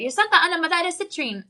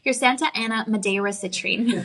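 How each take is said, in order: First: It is said quickly with a Spanish accent. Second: It is said with an English accent. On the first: "he was asking me to say it in Spanish super fast" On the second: "now say it in English"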